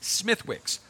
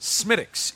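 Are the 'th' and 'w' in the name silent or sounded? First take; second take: sounded; silent. First: The name is said as spelled, with th and w. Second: The name is said without th and w sounds. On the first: The speaker calls it wrong. "it's spelled S-M-I-T-H-W-I-C-K apostrophe S, Smithwick's, but it's not" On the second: The speaker calls it right. "Smittix is the correct pronunciation"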